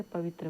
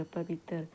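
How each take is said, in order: First: पवित्र said as written, ending in a tight "त्र" cluster; written form. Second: पवित्र said as "पवितर", the त्र broken into तर with a vowel between; split into tar. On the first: Teacher reads पवित्र as written before giving its Khortha form. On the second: Teacher shows the Khortha form of पवित्र, breaking त्र into तर. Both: Shown as a demonstration. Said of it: "त्र का उच्चारण लेखन तर की तरह होता है".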